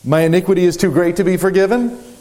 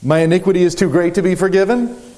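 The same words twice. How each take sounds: First: It sounds defiant and unrepentant. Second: It sounds defiant and unrepentant.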